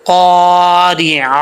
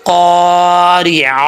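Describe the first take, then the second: No difference in how they are said.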